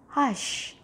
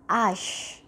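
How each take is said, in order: First: The word begins with an audible h sound. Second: The word begins with no h sound. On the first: The speaker calls it right. "it's going to be pronounced as hush" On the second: The speaker calls it wrong. "and not ash"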